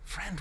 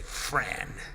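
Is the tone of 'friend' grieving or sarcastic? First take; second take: grieving; sarcastic. First: The word sounds tender and full of grief. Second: The word sounds sarcastic and cutting. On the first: The speaker means it sincerely, with sorrow. "it wasn't cynical, it wasn't hateful, it was, it was just grief" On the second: The speaker does not mean it and is getting in a dig. "you're sarcastic"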